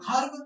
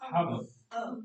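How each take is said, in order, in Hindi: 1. "herb" की शुरुआत में h ध्वनि है। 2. "herb" की शुरुआत में h ध्वनि नहीं है। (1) "हर्ब कभी नहीं होगी" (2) "बस हब"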